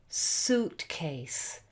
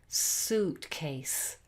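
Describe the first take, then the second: The two takes are said the same way.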